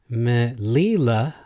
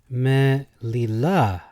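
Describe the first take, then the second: First: The stress is on the middle syllable. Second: The stress is on the last syllable.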